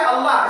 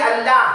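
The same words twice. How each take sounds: First: अल्लाह with a full, dark L; round heavy Allah. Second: अल्लाह said with a light, thin L; thin Allah wrong. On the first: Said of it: "मुंह को गोल करके पढ़ेंगे". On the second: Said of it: "अगर कहेंगे तो गलत होगा". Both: Shown as a demonstration.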